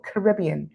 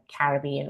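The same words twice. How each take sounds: First: It uses the American pronunciation of the word. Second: It uses a non-American pronunciation of the word.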